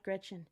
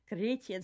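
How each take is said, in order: First: The name is said with English-style sounds. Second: The name is said with German-style sounds. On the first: The speaker calls it wrong. "as an English speaker... you think Gretchen... not Gretchen" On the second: The speaker calls it right. "It sounds so much better"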